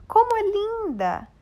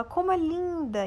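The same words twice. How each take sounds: First: "Como é linda!" much higher, louder and slow, with delight; exclaimed with joy. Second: "Como é linda!" with a raised pitch, at normal volume; exclaimed. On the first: Teacher demonstrating exclamation intonation to pupils. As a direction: burst out "Como é linda!" in admiration. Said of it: "falando mais alto ou com alegria". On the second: Teacher contrasting an exclamation with a question. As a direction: say "Como é linda!" with mild delight. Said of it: "percebam a diferença". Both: Shown as a demonstration.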